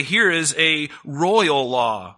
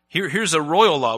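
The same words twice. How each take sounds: First: Slow, weighty proclamation of the verse; solemn scripture reading. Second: Said in the usual way. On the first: Acted. Preacher to congregation, proclaiming the royal law slowly. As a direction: lay each word down slowly like a decree.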